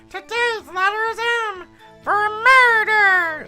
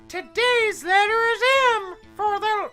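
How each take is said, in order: First: It is said in an Elmo voice. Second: It is said in a normal voice.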